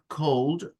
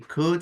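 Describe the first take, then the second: First: The L sound is pronounced in the word. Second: The L sound is left out of the word. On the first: The speaker calls it wrong. "It's not cold" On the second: The speaker calls it right. "So the L is mute"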